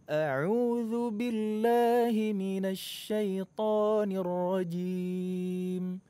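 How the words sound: It is said with a wide, clearly articulated mouth. The speaker calls it right. "kalau kita buka mulutnya besar ... baru terdengar jelas"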